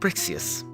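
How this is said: It is said in Wilhelmina's put-on voice.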